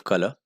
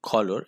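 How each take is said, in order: First: Said in the usual way. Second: "color" said KAW-lor, r sounded; own pronunciation of color. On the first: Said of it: "instead of color". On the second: Shown as a demonstration. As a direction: give "color" a rounded first O and a clear final r. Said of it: "I always pronounce it color".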